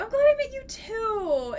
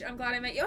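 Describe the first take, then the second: First: Much higher, louder delighted repeat; high delighted squeal; excited repeat. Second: Said in the usual way. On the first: Real, not acted. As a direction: say it again, beaming.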